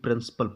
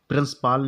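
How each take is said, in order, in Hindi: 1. आखिरी अक्षर का स्वर छोटा है, लगभग न के बराबर सुनाई देता है। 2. आखिरी अक्षर में लंबा, पूरा 'aa' स्वर है। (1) "प्रिंसिपल पढ़ेंगे" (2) "प्रिंसिपाल नहीं पढ़ेंगे"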